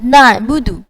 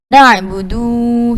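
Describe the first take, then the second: First: The final vowel is short. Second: The final vowel is lengthened. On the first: The speaker calls it right. "Contoh seperti lafaz na'budu" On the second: The speaker calls it wrong. "menambah huruf mad setelah huruf dal"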